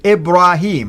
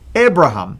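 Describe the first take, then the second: First: The name is said with a long 'ee' vowel. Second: The name is said without a long 'ee' vowel. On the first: It follows the usual Quranic form of the name. "it's actually with the ya, the way the Quran pronounce it" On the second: It follows the older Hebrew form of the name. "without the yeah, ... the Hebrew way of saying it ... like this"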